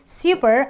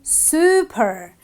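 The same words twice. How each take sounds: First: The first vowel is not a long oo. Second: The first vowel is a long oo. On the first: The speaker calls it wrong. "I don't say super" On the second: The speaker calls it right. "I say super. ... The long oo sound"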